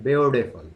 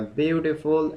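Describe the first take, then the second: First: "beautiful" said the American way, softened t; American-style "beautiful"; American pronunciation. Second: "beautiful" said the British way, crisp t; British-style "beautiful"; British pronunciation. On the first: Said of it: "American tells that beautiful". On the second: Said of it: "pronunciation is little bit different". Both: Shown as a demonstration.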